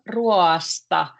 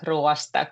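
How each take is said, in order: First: The word is said slowly, vowels drawn apart. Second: The word is said quickly, vowels run together.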